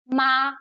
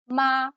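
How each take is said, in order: First: The pitch stays high, short and level. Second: The same.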